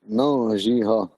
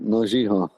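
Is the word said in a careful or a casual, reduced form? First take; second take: careful; casual. First: It is said carefully, in its full written form. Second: It is said casually, as in fluent speech. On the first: This is how the word is written. "that is the correct way to say it" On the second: This is how fluent speakers usually say it. "when you hear Ponta say it, they're going to say"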